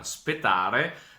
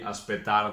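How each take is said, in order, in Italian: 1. La parola inizia con un suono consonantico. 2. La parola inizia con un suono vocalico. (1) "il Veneto, il perde la vocale iniziale" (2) "il perde la vocale iniziale"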